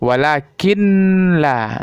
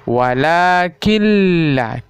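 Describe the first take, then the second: First: The n sound is pronounced before the l. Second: The n sound merges into a doubled l. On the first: The speaker calls it wrong. "Salah ya" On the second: The speaker calls it right. "seolah-olah kita memasukkan bunyi nun ke huruf lam"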